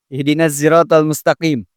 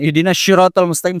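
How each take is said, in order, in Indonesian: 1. 'Sirat' diawali dengan bunyi z. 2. 'Sirat' diawali dengan bunyi sh. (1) "bisa juga pakai zai" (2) "Jangan itu pakai shin. ... salah itu"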